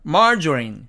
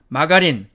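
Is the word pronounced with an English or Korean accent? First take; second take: English; Korean. First: It is said with an English pronunciation. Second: It is said as a Korean loanword. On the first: The speaker calls it right. "영어식으로 읽으면 margarine" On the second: The speaker calls it wrong. "우리는 이것을 어떻게 읽느냐면 마가린"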